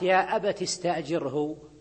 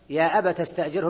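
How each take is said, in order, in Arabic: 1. التاء في 'abat' مكسورة. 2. التاء في 'abat' مفتوحة.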